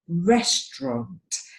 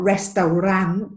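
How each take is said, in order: First: It is said with almost two syllables. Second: It is said with three full syllables. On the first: The speaker calls it right. "It almost just has two syllables" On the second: The speaker calls it wrong. "It's not restaurant"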